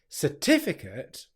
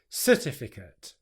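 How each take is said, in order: First: The first syllable is weak and unstressed. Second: The stress falls on the first syllable. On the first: The speaker calls it right. "instead of getting certificate" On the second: The speaker calls it wrong. "the stress is put onto the first syllable"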